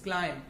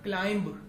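First: The final b is silent. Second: The final b is pronounced. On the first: The speaker calls it right. "that is climb. ... B silent होता है" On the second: The speaker calls it wrong. "that is not climb"

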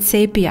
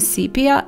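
First: Said with the speaker's own native-language pronunciation. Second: Said with the pronunciation other speakers use. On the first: This is how the speaker has always said it. The speaker calls it wrong. "I'm just always calling it sepia" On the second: This is how other people say it. The speaker calls it right. "I hear other people saying sepia"

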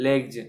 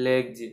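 No difference in how they are said.

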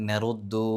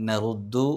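Both takes have the same delivery.

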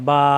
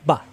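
First: The vowel is drawn out long. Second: The vowel is clipped short. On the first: This is the name of the letter. "এখানে কিন্তু লম্বা করতে পারতেছি আমরা বা" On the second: This is the letter with a vowel mark. "কোনো লম্বা করা যাবে না"

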